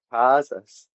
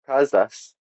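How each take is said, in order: First: "kazas" with a drawn-out first a; long vowel. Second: "kazas" with a short first vowel. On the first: Host showing Latvian for wedding, long vowel. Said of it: "is slightly longer". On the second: Host showing Latvian for goats, short vowel. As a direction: say "kazas" keeping the a brief. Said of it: "is a short vowel". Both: Shown as a demonstration.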